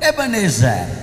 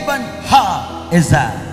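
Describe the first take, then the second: First: The name runs together as a single word. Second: The name is split into three separate parts.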